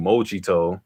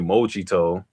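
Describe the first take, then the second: First: The word is said in a Japanese-style way. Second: The same.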